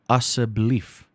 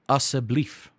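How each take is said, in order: The two takes are said the same way.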